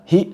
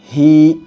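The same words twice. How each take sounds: First: The vowel is held for one short count. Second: The vowel is held for two counts. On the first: The speaker calls it wrong. "kita baca hi satu harokat. Tidak" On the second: The speaker calls it right. "tapi dibaca dua harokat"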